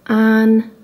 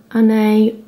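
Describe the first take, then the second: First: "Anne" said short, like English "an"; first try at "Anne" clipped to one syllable "an"; unsure pronunciation. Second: "Anne" said in two syllables, "an-ay"; retry "Anne" with an added ending, "an-ay"; second try. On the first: Vlogger tries the Danish name "Anne", says it short as "an". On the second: Vlogger retries the Danish name "Anne" as two syllables, "an-ay". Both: Real, not acted. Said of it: "I'm not gonna be able to pronounce that".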